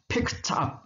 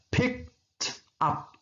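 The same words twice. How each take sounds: First: The phrase is said quickly and run together. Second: The phrase is said slowly and carefully.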